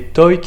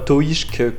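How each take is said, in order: First: The name ends in a plain k sound. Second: The name ends in an sh-k sound. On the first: The speaker calls it right. "c'était Toik" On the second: The speaker calls it wrong. "et non pas Toishk, comme on peut l'entendre sur Equidia"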